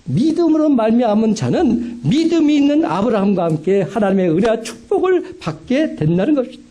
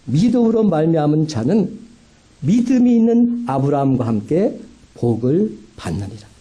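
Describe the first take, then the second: First: 높은 목소리로 구절을 힘주어 되풀이; 성도들에게 다시금 새기듯 강조. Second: 차분하게 성경 구절을 읽듯; 구절을 또박또박 낭독하듯. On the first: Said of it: "분명히 다시금 기억하십시오". (높이 띄워 강조하는 설교 반복) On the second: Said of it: "갈라디아서 삼 장 구 절은 이렇게 말합니다". (성경 말씀 낭독하는 어조) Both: Acted.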